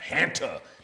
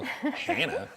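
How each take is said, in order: First: The T sound in the middle is clearly pronounced. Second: The T sound in the middle is dropped. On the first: The speaker calls it right. "You got to make sure you enunciate that T" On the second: The speaker calls it wrong. "You don't want to make it sound like Hannah virus"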